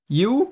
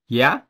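First: The word ends with a full 'oo' vowel. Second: The word ends with a reduced 'uh' vowel.

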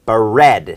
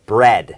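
First: A short vowel splits the b and r sounds. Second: The b and r blend quickly with no vowel. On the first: "ก็เพิ่มสระอะเข้าไปนะครับเป็นบะแล้วก็ระ" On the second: "เพิ่มความเร็วควบกล้ำเป็น"

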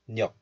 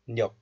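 No difference in how they are said.

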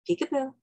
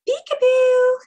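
First: It is said in a lower, normal voice. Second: It is said in a high-pitched baby-talk voice.

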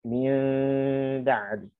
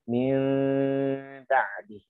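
Both takes have the same delivery.

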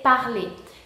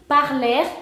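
First: The word ends with an e vowel, no R. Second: The word ends with a sounded R. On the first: The speaker calls it right. "no se va a pronunciar R al fin, sino que se va a pronunciar E" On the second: The speaker calls it wrong. "van a decir parler en vez de parler"

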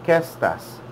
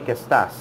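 First: The stress is on qué. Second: The stress is not on qué.

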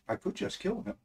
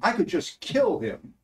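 First: It sounds like serious, deliberate intent. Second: It sounds like casual, exasperated venting. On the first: The speaker actually means to kill him. "to saying" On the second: It is a figure of speech, not a real wish. "it's only a step from that kind of sentiment to go from saying"

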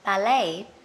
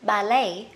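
First: The stress is on the second syllable. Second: The stress is on the second syllable.

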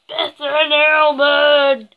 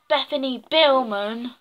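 First: The break falls after Bethan, before Illman. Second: The break falls after Bethany, before Billman. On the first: The speaker calls it right. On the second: The speaker calls it wrong.

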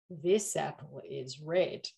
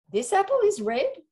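First: It is said in a tempting, suggestive way. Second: It is said in a challenging, boastful way.

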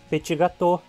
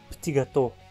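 First: It is said with Portuguese sounds and rhythm. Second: It is said with French sounds and rhythm. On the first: This is the usual adapted form in Portuguese speech. The speaker calls it right. "O mesmo vale para o francês. Petit gâteau" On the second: This keeps the pronunciation of the original language. The speaker calls it wrong. "e não petit gâteau"

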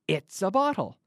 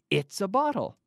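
No difference in how they are said.

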